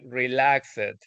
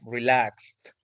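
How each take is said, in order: First: The -ed ending is said as an extra syllable. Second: The -ed ending is a plain final sound. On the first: The speaker calls it wrong. "you stated like relaxed, and that's not the correct pronunciation" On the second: The speaker calls it right. "we only say it like relaxed with, with the final part like that"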